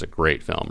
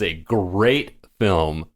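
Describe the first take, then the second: First: The phrase is said plainly, without strong emphasis. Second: The phrase is said strongly, with heavy emphasis. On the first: The speaker calls it wrong. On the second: The speaker calls it right.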